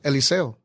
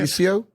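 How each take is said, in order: First: The name is said with Spanish pronunciation. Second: The name is said with English pronunciation. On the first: "the correct way to say my name is Eliseo" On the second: "in English for for you"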